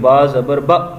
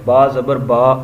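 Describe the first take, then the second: First: The final syllable is jerked out abruptly. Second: The final syllable is said smoothly, without a jerk. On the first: The speaker calls it wrong. "झटका भी नहीं देना" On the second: The speaker calls it right. "मारूफ पढ़ना है"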